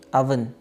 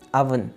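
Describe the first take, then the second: Both takes have the same delivery.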